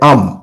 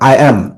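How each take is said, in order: First: It is said as one short contracted syllable. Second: It is said as two separate full words. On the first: The speaker calls it right. "এটা উচ্চারণ করবে হচ্ছে আম" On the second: The speaker calls it wrong. "Not আই অ্যাম"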